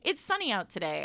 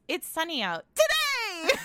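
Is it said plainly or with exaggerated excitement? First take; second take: plainly; exaggerated excitement. First: It is said in a plain, calm way. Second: It is said with loud, exaggerated excitement.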